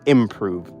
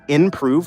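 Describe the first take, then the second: First: The first syllable is said with an m sound. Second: The first syllable is said with an n sound. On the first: "instead of improve" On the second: "As a child, I used to say improve, like I N prove"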